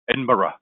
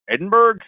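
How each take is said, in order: First: The ending does not sound like Pittsburgh's. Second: The ending sounds like the end of Pittsburgh. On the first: The speaker is a local. The speaker calls it right. "to sound like a local" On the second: The speaker is a tourist. The speaker calls it wrong. "similar to the way we pronounce Pittsburgh"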